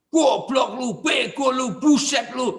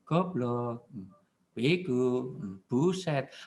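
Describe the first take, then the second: First: It is shouted loudly and angrily. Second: It is said quietly and gently.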